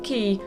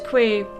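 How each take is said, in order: First: The name is said to rhyme with 'see'. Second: The name is said with a 'kw' sound.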